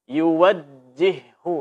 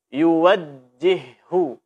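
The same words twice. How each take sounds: First: The doubled j is articulated firmly and clearly. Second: The same.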